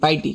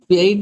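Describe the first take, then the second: First: The word begins with a 'pie' sound. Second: The word begins with a 'pee' sound. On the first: The speaker calls it right. "ପାଇଟି ପାଇଟି କହିବେ" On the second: The speaker calls it wrong. "ପିଆଇଟି ନୁହେଁ"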